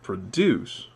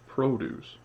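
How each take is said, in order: First: The stress is on the second syllable. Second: The stress is on the first syllable. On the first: It is used as a verb. "that pattern with the rising at the end" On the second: It is used as a noun. "with stress on the first one"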